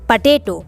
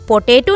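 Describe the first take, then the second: First: The first vowel is a short 'uh' sound. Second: The first vowel is a full 'oh' sound. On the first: The speaker calls it right. "English में कहते हैं पटेटो" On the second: The speaker calls it wrong. "पोटैटो नहीं कहते हैं"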